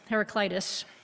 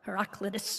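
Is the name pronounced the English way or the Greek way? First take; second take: English; Greek. First: The name is said the usual English way. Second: The name is said the Greek way. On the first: "most of us decide it's Heraclitus" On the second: "or Heraclitus if you are Greek"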